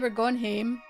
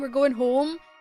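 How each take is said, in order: First: Home has a Scottish vowel, like hame. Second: Home has the standard English vowel. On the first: "We say" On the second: "instead of saying"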